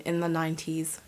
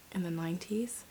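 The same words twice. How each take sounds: First: Said in the usual way. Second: NINETIES as a hushed, rising question; doubting question. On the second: Real, not acted. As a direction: softly question NINETIES, voice lifting at the end. Doubting the decade she said.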